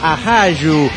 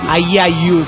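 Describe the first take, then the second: First: The middle consonant is a harsh h-like sound. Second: The middle consonant is a soft y sound. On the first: The speaker calls it right. "sino que es ajayu" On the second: The speaker calls it wrong. "no es ayayu, como dijo usted"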